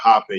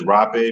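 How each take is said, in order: First: The word begins with an H sound. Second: The word begins with an R sound.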